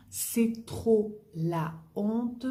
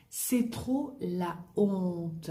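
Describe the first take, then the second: First: Very slow "C'est trop la honte", stress rising on "trop"; slow lifted model phrase. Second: Very slow "c'est trop la honte", weight on "c'est"; slow model phrase. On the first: Teacher repeating the slang phrase slowly. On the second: Teacher modelling slang slowly for the class. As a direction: drag it out for learners. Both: Shown as a demonstration.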